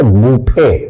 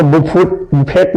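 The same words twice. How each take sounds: First: बुफे said as "bu-fe" with a silent t; correct pronunciation. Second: बुफेट said as "bu-fet" with a hard final t; wrong pronunciation. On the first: Teacher giving the class the right reading, बुफे without t. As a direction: say बुफे ending on the open e, no t. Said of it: "क्या पढ़ेंगे?". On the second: Teacher showing students the wrong reading, bu-fet with t. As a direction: mispronounce बुफेट on purpose, sounding the t. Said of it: "इसको बुफेट नहीं पढ़ेंगे". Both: Shown as a demonstration.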